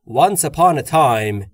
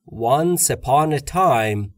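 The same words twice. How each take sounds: First: The words run together very smoothly and quickly. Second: The words are linked together into each other. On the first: "یا خیلی روونتر" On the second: "میگم"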